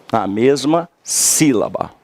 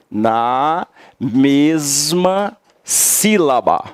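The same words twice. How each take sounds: First: Said in the usual way. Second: NA, MESMA, SÍLABA each stretched and set apart; slow word-by-word emphasis. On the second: Shown as a demonstration. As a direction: drill Na mesma sílaba very slowly. Teacher spells out key phrase slowly.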